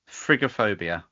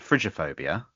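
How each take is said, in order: First: The G is hard, as in go. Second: The G is soft, as in fridge. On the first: "I'm probably mispronouncing it deliberately" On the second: "How else could I pronounce the G"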